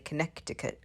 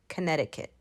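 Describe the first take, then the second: First: The second c is pronounced as a k sound. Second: The second c is silent, not pronounced. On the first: The speaker calls it wrong. "we don't say Connecticut" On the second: The speaker calls it right. "that second C in Connecticut is silent. ... we say Connecticut"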